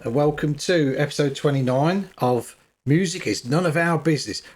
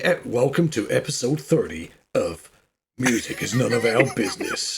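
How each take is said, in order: First: It is said in a plain voice. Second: It is said in a dramatic, booming voice.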